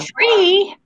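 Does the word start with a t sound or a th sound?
t sound. It starts with a plain t sound. The speaker calls it wrong. "my grandmother has a German accent... she says tree"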